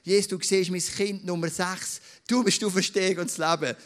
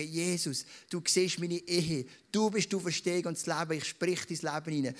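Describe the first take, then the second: First: Louder, declaring the words over the room; proclaimed prayer. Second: Modelled prayer. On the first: Pastor models a prayer of faith for his church, proclaimed loudly. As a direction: speak it out boldly as a declaration. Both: Shown as a demonstration. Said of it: "du darfst es wirklich auch laut sagen und sagen".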